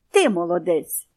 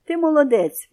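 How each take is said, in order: First: Lower, crisp parrot repeating each word; clear parrot repeat. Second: Higher, louder warm praise; praising boy. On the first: Parrot repeats the boy's praise clearly. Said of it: "чітко сказав папуга". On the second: Boy praises the parrot warmly. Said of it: "мовив до нього хлопчик". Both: A narrator's reading.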